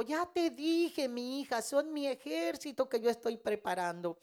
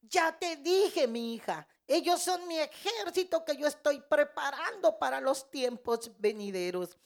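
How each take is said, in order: First: A gently firm word from God to his daughter; retelling God's steady reminder, raised but not forceful; firm divine voice. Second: The Lord insisting the third time, pressing it hard; retold divine voice booming the reminder to his daughter; louder commanding voice. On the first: Retold or imitated. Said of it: "Y Dios me dijo". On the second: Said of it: "el Señor que me habla más fuerte".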